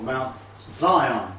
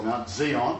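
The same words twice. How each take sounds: First: "Zion" pronounced ZY-on, English style; first syllable of Zion rhymes with "sigh". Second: "Zion" pronounced zee-ON, the other regional way; first syllable of Zion rhymes with "see". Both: Shown as a demonstration. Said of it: "depending where you come from".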